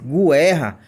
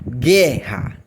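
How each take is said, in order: First: A U sound is heard after the G. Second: No U sound is heard after the G. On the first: The speaker calls it wrong. "Se eu lisse guerra, aí seria um encontro, um encontro vocálico" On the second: The speaker calls it right. "nós lemos guerra. Então não aparece o som do U"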